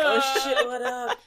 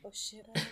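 First: It is said in a normal voice. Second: It is whispered.

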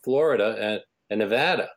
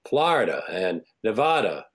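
First: It is said with a general American accent. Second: It is said with a Northeastern American accent.

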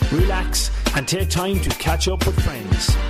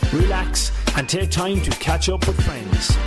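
Both takes have the same delivery.

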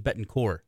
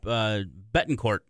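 First: The name ends without any T sound. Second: The name ends with an audible T sound. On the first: The speaker calls it right. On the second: The speaker calls it wrong.

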